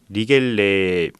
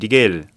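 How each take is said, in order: First: The name is said with three syllables, ending -gele. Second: The name is said with two syllables, ending -gel. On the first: The speaker calls it right. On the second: The speaker calls it wrong.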